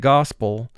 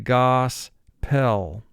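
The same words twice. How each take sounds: First: The word is said as in natural speech. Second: The word is said to reflect its spelling. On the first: This is how the word is normally spoken. "for pronunciation we say gospel" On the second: This helps to remember how the word is spelled. "for spelling we're going to say gospel"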